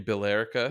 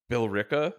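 First: Billerica as "bill-LER-ica", in four syllables; phonetic pronunciation. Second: Billerica squeezed to "bill-RICK-a"; local pronunciation. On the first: Arguing from the spelling, Billerica as "bill-LER-ica". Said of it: "It should be". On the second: Offering another odd town, Billerica as "bill-RICK-a". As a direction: say Billerica in three syllables, "bill-RICK-a", questioning. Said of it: "It should be Billerica". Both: Shown as a demonstration.

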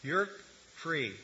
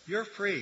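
First: Said in the usual way. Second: You're lifted higher and leaned on; stress on You're. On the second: Retold or imitated. Preacher repeating Paul's promise, stress on You're. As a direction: hit You're, then drop on free. Repeated quote, second take.

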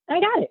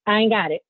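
First: "I ain't got it" jumped up high, sassy; higher sassy repeat. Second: Said in the usual way. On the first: Acted. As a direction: fling it back higher the second time. Repeats the refusal twice.

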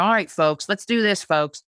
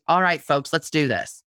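First: Upbeat, pumped-up call to the crowd; folksy rally call. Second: Friendly, easygoing get-going; folksy rally call. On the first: Host rallying her blog readers, folksy and upbeat. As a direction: rev up the audience, casual and friendly. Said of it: "I'm one of these people that say". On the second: Blogger showing her natural voice, relaxed and folksy. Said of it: "My voice is". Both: Shown as a demonstration.

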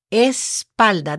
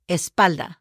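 First: "Espalda" split slowly as es, palda; slow syllable-by-syllable model. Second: Said in the usual way. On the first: Shown as a demonstration. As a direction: draw out "Espalda" with a break after "Es". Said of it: "That's a little more complicated". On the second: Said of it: "back in Spanish is called espalda".

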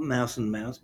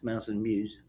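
First: Mouse and Mouse, both words said as mouse; wrong name. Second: Mouse and muse, second word said myooz; right name. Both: Shown as a demonstration. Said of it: "Not Mouse and Mouse".

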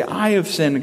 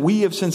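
First: "I" leaned on firmly to personalize it; stress on I. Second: Said in the usual way. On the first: Shown as a demonstration. Pastor showing the congregation how to personalize it, leaning on "I". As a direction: make "I" the heart of the confession. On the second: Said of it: "instead of saying".

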